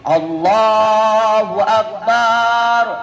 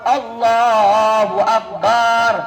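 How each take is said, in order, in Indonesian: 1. Vokal pada suku kata terakhir dipanjangkan. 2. Vokal pada suku kata terakhir dipanjangkan.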